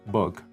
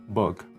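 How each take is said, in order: First: The vowel sounds close to uh. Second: The same.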